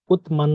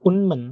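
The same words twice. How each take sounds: First: "উৎমান" with a t stop before m; unchanged pronunciation. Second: "উন্মান" with n in place of t, high then falling; nasal assimilation. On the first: Teacher quizzing learners on the written form, unchanged pronunciation. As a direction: keep the t closed in "উৎমান". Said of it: "না হয়ে এটার উচ্চারণ কি হবে". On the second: Teacher answering her question, nasal assimilation. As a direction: slide from n to m in "উন্মান", pitch dropping. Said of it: "এটার উচ্চারণ কি হবে". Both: Shown as a demonstration.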